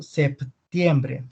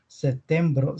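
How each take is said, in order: First: "septiembre" with audible p and ie; Spanish month name. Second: "Septiembre" said as setembro, no p; Portuguese month name. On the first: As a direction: sound the p before t in "septiembre", ending in e. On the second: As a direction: drop p and ie from "Septiembre", ending in o. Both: Shown as a demonstration. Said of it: "la P antes de T".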